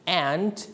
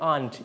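First: "aunt" pronounced like "ant"; American-style aunt. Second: "aunt" pronounced "ahnt"; British-style aunt. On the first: Teacher reassures pupils either works, "aunt" like "ant". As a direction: front "a" of cat in "aunt". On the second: Teacher reassures pupils either works, "aunt" as "ahnt". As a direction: open "ah" of father in "aunt". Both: Shown as a demonstration. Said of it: "Both are correct".

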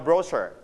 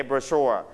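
First: Brochure the British way, BRO-sher; British pronunciation. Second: Brochure, stressed on the second syllable. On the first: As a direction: stress the first syllable of brochure, British style. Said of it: "But in British, we pronounce". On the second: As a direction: land on the end of brochure, falling. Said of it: "Second syllable, so you pronounce it". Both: Shown as a demonstration.

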